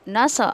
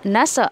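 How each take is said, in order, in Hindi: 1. आवाज़ एक उछलती हुई गूंज के साथ कटती है। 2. आवाज़ एक उछलती हुई गूंज के साथ कटती है।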